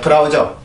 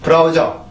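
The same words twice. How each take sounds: First: It is said with Korean syllables, beu-ra-u-jeo. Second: The same.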